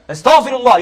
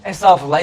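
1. Samimi, içten bir şekilde söyleniyor. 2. Rahat, gelişigüzel bir şekilde söyleniyor. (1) "Kalben diyeceksin, kalben" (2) "Ağzıyla ne demek? ... Böyle"

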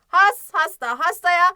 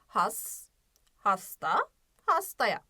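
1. Kelimeler çok hızlı okunuyor, birbirine karışıyor. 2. Kelimeler aralarında duraklamalarla yavaş okunuyor.

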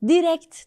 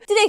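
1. Kelime net bir t sesiyle bitiyor. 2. Kelime t sesi olmadan bitiyor. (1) "T'yi duyacağım sonunda" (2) "Direkt söyledim diyor"

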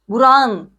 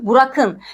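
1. K, ğ sesine yumuşatılır. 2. K sert k sesi olarak kalır.

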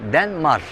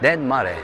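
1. İsim r sesiyle bitiyor. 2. İsim son e ünlüsüyle bitiyor. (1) "Denmar olarak geçiyor" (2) "E'si de var mı?"

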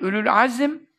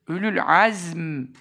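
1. Son kelimenin iki hecesi var, azim. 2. Son kelimenin tek hecesi var, azm. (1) "Ülül Azim değil" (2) "keskin Z"

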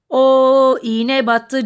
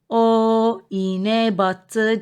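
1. Tekerleme daha hızlı bir tempoda okunuyor. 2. Tekerleme normal bir tempoda okunuyor.

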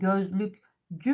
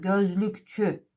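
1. Ek, sesli 'c' (j) sesiyle başlar. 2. Ek, sessiz 'ç' (ch) sesiyle başlar. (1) "Peki gözlükcü mü deriz?" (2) "ekin ilk harfinde değişiklik olur"

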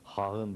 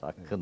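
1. Ortadaki ünsüz yumuşak bir kayma sesidir. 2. Ortadaki ünsüz çift k'dır. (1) "hağın var denmez" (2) "hakkın evet. var denecek"

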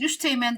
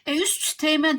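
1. Bir T sesi düşürülür. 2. T sesi tam olarak iki kez söylenir. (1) "üst teğmen deriz ve T'yi düşürürüz" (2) "Üst teğmen demek zor olduğu için"

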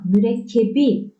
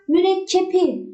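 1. Son ünlüden önce gelen ünsüz b. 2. Son ünlüden önce gelen ünsüz p.

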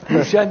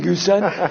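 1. Ortadaki ünsüz 'sh' sesidir. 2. Ortadaki ünsüz 's' sesidir. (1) "Gülşen değil"

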